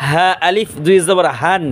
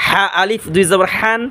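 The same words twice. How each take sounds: First: হান with an open h from the bottom of the throat; slow recitation, হা breathed from where the throat begins; deep-throat হা. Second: হান with a tight h from mid-throat. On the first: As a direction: let the h of হা come from deep in the throat, slowly. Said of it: "এ হা হবে গলা শুরু হইতে". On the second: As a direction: squeeze the h of হা in the middle of the throat. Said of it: "এ হা হবে গলার মাঝখান". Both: Shown as a demonstration.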